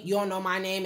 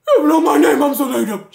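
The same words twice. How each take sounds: First: Said in the usual way. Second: Very loud, high mocking cry; hammed-up dramatic complaint; mock wailing. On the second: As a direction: wail it in exaggerated mock outrage. Same words repeated as loud mockery.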